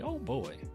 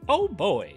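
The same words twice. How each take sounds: First: It is said in a Mickey Mouse voice. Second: It is said in his normal voice.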